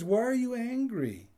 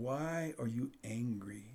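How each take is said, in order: First: Loud, high pointed question; God asking. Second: Soft, slow asking; gentle question. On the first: Retold or imitated. God confronting Cain about his anger, loud and high. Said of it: "But God says". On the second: Shown as a demonstration. God asking Cain gently, soft and slow. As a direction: ask it quietly and slowly. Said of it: "he asked the question".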